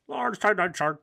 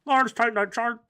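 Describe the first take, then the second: First: Said in the usual way. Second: Higher excited read. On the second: Shown as a demonstration.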